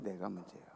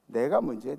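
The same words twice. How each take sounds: First: Much lower and far softer, 내가 barely voiced; preacher echoing it softly, almost to herself, near whisper. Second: Said in the usual way. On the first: Shown as a demonstration. Hushed low echo.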